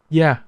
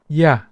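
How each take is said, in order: First: The word begins with a y sound. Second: The same.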